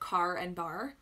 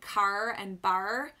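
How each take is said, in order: First: It is said in a plain, unmarked accent. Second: It is said in a pirate-like regional accent. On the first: This is the usual way elsewhere. "instead of car and bar" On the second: This is how people there talk. "what I called the pirate accent because it was always like car and bar"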